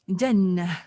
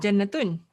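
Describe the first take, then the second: First: The ending is dropped after the 'a'. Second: The full ending '-atun' is pronounced. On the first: The speaker calls it right. "Because the at the end of it, it is being muted" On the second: The speaker calls it wrong. "Originally, your name is Jannatun"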